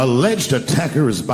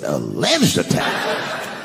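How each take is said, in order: First: Said in the usual way. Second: "Alleged" drawn out slowly, pitch leaping up and falling; incredulous repeat. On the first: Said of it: "That was the headline of the article". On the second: Acted. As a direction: question "Alleged attacker" in slow disbelief. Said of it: "I said".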